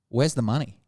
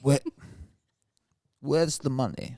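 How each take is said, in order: First: It is said in a plain, unaccented voice. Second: It is said in a thick Russian accent.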